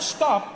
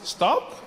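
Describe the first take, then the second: First: It is said as a firm command. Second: It is said as a gentle suggestion.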